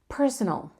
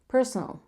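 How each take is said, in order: Both takes have the same delivery.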